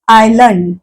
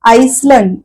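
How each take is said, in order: First: The word is said with no S sound. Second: The word is said with an S sound. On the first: The speaker calls it right. "आपण म्हणतो आयलंड" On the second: The speaker calls it wrong. "आईसलंड असं नाही"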